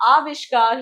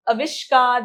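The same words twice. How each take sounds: First: आविष्कार with a long opening aa, "aavishkar"; correct आविष्कार. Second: आविष्कार with a short opening a, as "avishkar"; mispronounced आविष्कार. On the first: Teacher correcting children's error, आविष्कार begun with long आ. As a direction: open आविष्कार on a full long आ. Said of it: "अ के बाद मात्रा आएगी". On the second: Teacher showing children the wrong form, आविष्कार begun with short अ. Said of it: "नहीं होता". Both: Shown as a demonstration.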